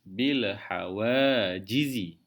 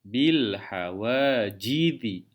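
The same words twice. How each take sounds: No difference in how they are said.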